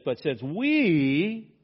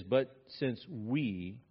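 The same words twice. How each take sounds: First: "we" shouted loud and higher, stretched slowly; emphatic yell. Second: "But since we" drawn out slowly, no extra push; slow plain reading. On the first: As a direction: yell "But since we", leaning hard on "we". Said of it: "he's yelling at them". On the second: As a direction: read it slowly and evenly first. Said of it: "this is an interesting "we". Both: Shown as a demonstration.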